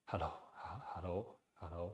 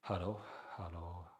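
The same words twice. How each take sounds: First: Softly whispered hellos; light breathy whisper of hello. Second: A whispered hello felt at the back of the throat; throaty whisper. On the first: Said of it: "try to almost whisper". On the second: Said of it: "you almost feel like almost the back of your throat". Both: Shown as a demonstration.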